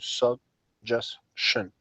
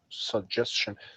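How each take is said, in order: First: It is said slowly, broken into syllables. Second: It is said quickly as one smooth word. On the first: "I divide it into syllables uh, and try to say it" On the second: "every time I, I try to say it, I try more quickly"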